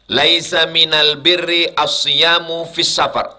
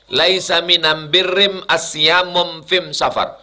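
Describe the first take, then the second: First: The article is said with l, standard Arabic. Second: The article is said with m, Himyari dialect.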